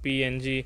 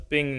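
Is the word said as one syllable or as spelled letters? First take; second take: spelled letters; one syllable. First: It is spelled out as three separate letters. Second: It is said as the single syllable ping. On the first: The speaker calls it wrong. "not PNG" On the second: The speaker calls it right. "the image is pronounced as ping"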